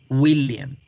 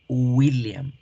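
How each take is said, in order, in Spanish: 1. La W se pronuncia como una vocal 'u'. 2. La W se pronuncia como una vocal 'u'.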